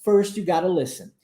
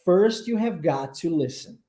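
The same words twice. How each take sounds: First: "got to" run together as "gotta"; colloquial contraction. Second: "have got to" in full, each word distinct; careful formal English "have got to"; no contractions. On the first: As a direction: slur "got to" into one word, "gotta". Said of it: "Dentro da linguagem mais coloquial". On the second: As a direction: say "have got to" slowly without shortening. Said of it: "Sem abreviações". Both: Shown as a demonstration.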